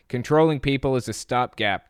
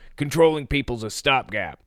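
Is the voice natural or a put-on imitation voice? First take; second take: natural; put-on. First: It is read in the speaker's natural voice. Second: It is said in a strained, put-on imitation voice.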